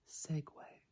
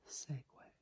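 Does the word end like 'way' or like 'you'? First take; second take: way; way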